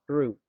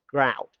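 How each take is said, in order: First: The vowel sounds like 'oo', rhyming with 'boot'. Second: The vowel sounds like 'ow', rhyming with 'out'. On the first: The speaker calls it right. "the correct way to pronounce these words should be root" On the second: The speaker calls it wrong. "I thought it should be pronounced grout"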